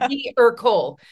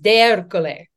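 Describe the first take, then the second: First: The name is said with simplified English pronunciation. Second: The name is said with full Italian pronunciation. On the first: This is a quicker form for everyday use. "I don't always pronounce it that way because it's a lot" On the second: This is the correct form of the name. "the proper Italian pronunciation is"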